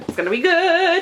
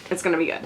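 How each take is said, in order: First: It's gonna be good said high and loud; excited squeal; excited, higher and louder. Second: Said in the usual way. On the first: Real, not acted. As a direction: hype yourself up.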